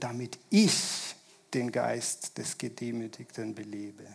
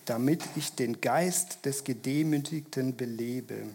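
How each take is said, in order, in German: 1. Das Wort 'ich' trägt starke Betonung. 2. Das Wort 'ich' trägt keine besondere Betonung.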